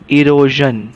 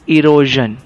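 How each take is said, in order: No difference in how they are said.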